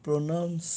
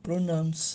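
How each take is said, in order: The two takes are said the same way.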